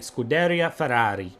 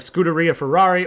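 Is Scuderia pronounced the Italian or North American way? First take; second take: Italian; North American. First: Scuderia is pronounced the Italian way. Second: Scuderia is pronounced the North American way. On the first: The speaker calls it right. "if you want to say it in a proper pronunciation" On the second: The speaker calls it wrong. "instead of"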